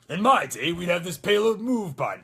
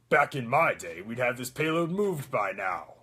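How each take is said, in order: First: The voice is less gruff and rough. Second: The voice is gruffer and rougher.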